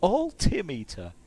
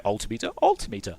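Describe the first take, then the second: First: "altimeter" high and stretched out slowly; exaggerated pronunciation. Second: "Altimeter, altimeter" rattled off fast; quick repeated pronunciation. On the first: Mimicking own word practice for viewers, "altimeter" high and drawn out. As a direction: draw "altimeter" out with a big high swoop. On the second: Retold or imitated. Mimicking own word practice for viewers, "Altimeter" said quickly twice. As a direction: reel off "Altimeter, altimeter" briskly. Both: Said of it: "I was just like".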